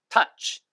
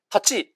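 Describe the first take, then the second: First: It is said as one single syllable. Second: It is said as two full syllables. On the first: The speaker calls it right. "원어민 발음" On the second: The speaker calls it wrong. "두 글자로 하지 마세요"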